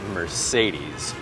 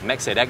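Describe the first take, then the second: First: It is said English-style, stressing the second syllable. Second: It is said with Vietnamese-style pronunciation. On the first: "khi nói tiếng Anh thì hãy đọc là Mercedes. Đấy, trọng âm nằm tại âm tiết thứ hai" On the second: "Khi nói tiếng Việt thì các bạn cứ đọc là Mercedes"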